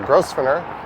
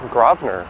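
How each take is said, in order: First: It is said following the written spelling. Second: It is said like 'Grawvner', without an s sound. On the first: The speaker calls it wrong. "It looks like Grosvenor" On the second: The speaker calls it right. "actually Grosvenor, as in G R A W V N E R"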